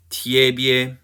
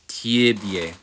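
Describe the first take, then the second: First: "tie bie" as tyeh-byeh, louder; emphatic tyeh-byeh for "tie bie"; full ye vowels. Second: "tie bie" slowly as tyih-BYEH; slow syllables in "tie bie", tyih then byeh; unstressed i. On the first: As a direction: model "tie bie" with yeh in both syllables. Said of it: "because we have this E". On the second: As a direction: reduce the first vowel of "tie bie" to ih. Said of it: "but when unstressed". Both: Shown as a demonstration.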